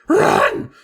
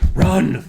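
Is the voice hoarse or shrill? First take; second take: shrill; hoarse. First: The voice is high and shrill. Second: The voice is rough and hoarse. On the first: "not horse and shrill" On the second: "I'm just going to go back to horse"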